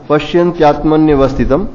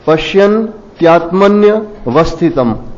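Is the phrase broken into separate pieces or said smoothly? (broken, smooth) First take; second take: smooth; broken. First: It is said smoothly together without pauses. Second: It is split into three pieces with pauses. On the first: "फिर एक साथ में आ जाएगा" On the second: "इसको जैसे तीन टुकड़ों में आप कर दें"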